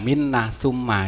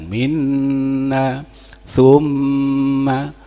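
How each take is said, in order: First: The nasal hum is short, without lingering resonance. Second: The nasal hum is held long in the nose. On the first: The speaker calls it wrong. "itu masih belum gunnah" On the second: The speaker calls it right. "makanya harus agak ditahan"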